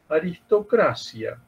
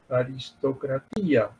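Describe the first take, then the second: First: The word ends in a Spanish '-cracia' sound. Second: The word ends in a Greek '-cratía' sound. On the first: "Adecuada a nuestra fonética" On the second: "la misma palabra griega"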